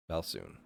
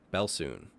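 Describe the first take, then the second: First: Dropped to a soft, ominous murmur; quiet teasing. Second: Said in the usual way. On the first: Shown as a demonstration. GM teasing players about the coming bell, much softer. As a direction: let it fall away quietly, teasing. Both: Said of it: "teasing repeat".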